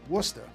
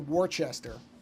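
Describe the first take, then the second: First: The word is said in its short local form. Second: The word is said the way it is spelled. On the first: The speaker calls it right. "I know enough to say that correctly" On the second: The speaker calls it wrong. "I know better than to say Worcester"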